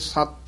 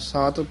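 First: The word is said tightly with a stressed consonant. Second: The word is said softly and loosely. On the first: The speaker calls it right. "ਥੋੜਾ ਜਿਹਾ ਕਸ ਕੇ ਹੀ ਬੋਲਣਾ" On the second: The speaker calls it wrong. "ਸਤ ਪੋਲਾ ਨਹੀਂ ਬੋਲਣਾ"

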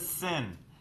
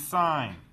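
First: The vowel is short, like in 'sin'. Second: The vowel is long, like in 'sign'. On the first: The speaker calls it wrong. "You do not pronounce this as sin" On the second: The speaker calls it right. "This is sine"

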